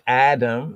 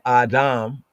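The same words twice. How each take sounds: First: The name is said with an English pronunciation. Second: The name is said with a Hebrew pronunciation. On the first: "We say Adam in English, the Western Gentile pronunciation"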